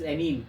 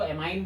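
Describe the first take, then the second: First: The last syllable sounds like 'mean'. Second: The last syllable sounds like 'mine'. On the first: The speaker calls it right. "That is एमीन" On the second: The speaker calls it wrong. "कई लोग इसको एमाइन बोलते हैं, actually एमाइन नहीं होता"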